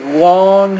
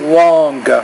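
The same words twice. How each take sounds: First: The word ends without a hard G sound. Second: The word ends with a hard G sound. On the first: The speaker calls it right. "Just say long" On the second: The speaker calls it wrong. "you don't really have to pronounce the G at the end... So you don't have to say long"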